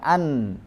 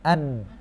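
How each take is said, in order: First: It is said with full nasal resonance. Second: It is said with the nose held shut. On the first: The speaker calls it right. "An ini sempurna" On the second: The speaker calls it wrong.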